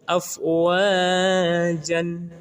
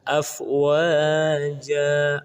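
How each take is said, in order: First: The word ends in an n sound. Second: The word ends in a lengthened a vowel. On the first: The speaker calls it wrong. "Tidak boleh dibaca dengan afwajan" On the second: The speaker calls it right. "baris an ini harus dibuang satu menjadi ja, afwaja, lalu dipanjangkan dua harakat"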